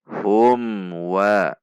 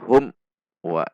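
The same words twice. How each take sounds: First: The m is clear and flows smoothly into wa. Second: The m is cut off with an abrupt jolt. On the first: The speaker calls it right. "dibaca jelas dengan sifat dari huruf mim" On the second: The speaker calls it wrong.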